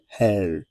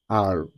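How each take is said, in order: First: The letter is said with a throaty French r. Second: The letter is said as English 'ar'. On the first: The speaker calls it right. "you rather say hell ... from the back of the throat" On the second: The speaker calls it wrong. "So in French, you don't say R"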